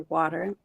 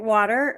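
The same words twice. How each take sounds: First: It is said in a Massachusetts accent. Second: It is said in a standard accent. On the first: "if I'm not concentrating, I would say water" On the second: "I say it water or wooder because my son makes fun of my Massachusetts accent"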